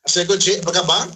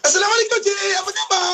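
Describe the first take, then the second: First: The greeting sounds plain and reserved. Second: The greeting sounds sweet and warmly friendly.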